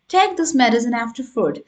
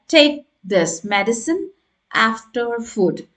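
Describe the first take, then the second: First: The whole phrase flows without pauses. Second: Each word is separated by small pauses. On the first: The speaker calls it right. "in a fluent way" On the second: The speaker calls it wrong. "No, not like this"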